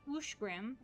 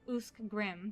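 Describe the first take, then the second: First: The first syllable ends with an sh sound. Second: The first syllable ends with an sk sound. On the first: The speaker calls it right. "uskrim is ushgrim" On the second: The speaker calls it wrong. "and not usk"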